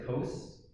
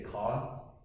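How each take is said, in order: First: It is said in a North American way. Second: It is said in a British way. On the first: "a lot of students nowadays, they just say cos" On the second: "if you're from the U K, they say cos"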